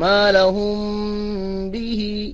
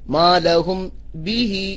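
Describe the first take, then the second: First: The m is hidden with a nasal hum. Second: The m is pronounced fully and clearly. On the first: "ഉന്നത്തോടുകൂടി മീമിനെ അവ്യക്തമാക്കി ഉച്ചരിക്കണം" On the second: "വ്യക്തമാക്കിയും ഓതാമെന്നും"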